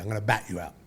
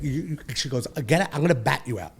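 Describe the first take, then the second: First: Said in the usual way. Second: Sharp raised threat from his mother; mother's threat. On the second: Retold or imitated. Mother threatening her grown son with a bat, raised and sharp. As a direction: snap it like a furious mother. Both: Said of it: "This is literally what she said to me".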